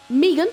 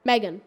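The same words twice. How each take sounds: First: "Megan" said as MEE-gun, up and loud; "Megan" with EE in the first syllable, punched loud; mispronounced name. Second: Said in the usual way. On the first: Real, not acted. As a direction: say "Megan" with a long ee, rising at the end. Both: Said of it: "how did I say Megan wrong?".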